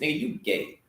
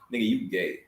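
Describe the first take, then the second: First: It is said imitating Riley Freeman's voice. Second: It is said in his own normal voice.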